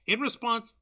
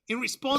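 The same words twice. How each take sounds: First: It is said in the speaker's usual accent. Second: It is said in a put-on Australian accent.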